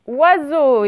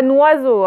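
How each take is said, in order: First: "Oiseau" starting straight on the wa sound; without liaison. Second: "noiseau" with an n at the front; liaison n attached. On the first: Teacher gives the word to spell, n-free "Oiseau". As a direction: begin "Oiseau" with no n. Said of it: "et non pas noiseau". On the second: Teacher rules out the wrong form, n-initial "noiseau". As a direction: start the word on n, "noiseau". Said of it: "et non pas". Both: Shown as a demonstration.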